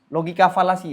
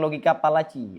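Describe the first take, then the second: First: The second word begins with an f sound. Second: The second word begins with a p sound. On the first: The speaker calls it right. "logika falasi ya" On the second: The speaker calls it wrong. "Bukan logika palaci"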